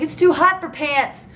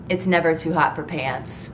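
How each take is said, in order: First: Put-on high, stretched girlish protest; mock whiny protest. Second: Low, matter-of-fact comeback; deadpan rebuttal. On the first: Recapper imitates girlfriend refusing pants, high mock protest. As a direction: whine it higher and slower, imitating her. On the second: Real, not acted. Own deadpan answer to that.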